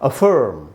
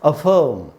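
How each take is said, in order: First: It is said with a curled r sound. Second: It is said without the r sound. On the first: "तो वो American उच्चारण है" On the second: "और मैं जो उच्चारण कर रहा हूँ ये ब्रिटिश उच्चारण है"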